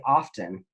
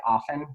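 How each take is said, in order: First: "often" said OFF-ten with the t sounded; "often" with the t pronounced. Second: "often" said OFF-en with the t silent; "often" rhymes with soften; often without the t. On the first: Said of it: "other people say often". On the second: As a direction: say "often" as OFF-en, no t sound. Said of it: "sometimes people say often". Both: Shown as a demonstration.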